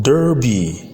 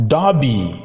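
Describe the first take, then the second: First: "derby" as "dur-bee", r-colored; American pronunciation. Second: "derby" as "dah-bee", no r; British pronunciation. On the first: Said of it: "American English". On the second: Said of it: "in British English is pronounced". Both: Shown as a demonstration.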